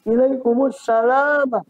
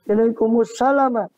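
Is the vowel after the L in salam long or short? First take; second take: long; short. First: The vowel after the L is long. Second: The vowel after the L is short. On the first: It means the greeting of peace. "membaca dengan lamnya panjang" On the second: It means submission, declaring the creed. "Ada yang membaca dengan pendek"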